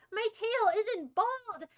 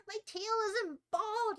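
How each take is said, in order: First: Higher, drawn-out protest, stress on "tail"; slow indignant. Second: Higher, slow, whiny "bald"; whiny put-on voice. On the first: Acted. Streamer defending her tail to chat, slow and offended. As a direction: insist slowly that the tail is fine. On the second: Streamer whining at chat in a cartoon cat voice. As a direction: whine it like a sulky cartoon cat.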